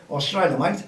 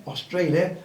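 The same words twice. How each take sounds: First: A light mock Australian accent, mate said like mite. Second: Said in the usual way. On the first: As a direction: toss off a quick half-hearted Australian accent on Australia, mate. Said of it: "Mal, no more Australian accents". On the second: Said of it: "no more Australian accents".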